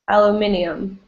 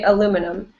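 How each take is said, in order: First: It is said the British way, five syllables. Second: It is said the American way, four syllables.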